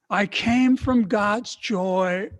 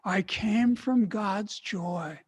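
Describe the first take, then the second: First: It is said loudly with great energy. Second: It is said in a normal voice.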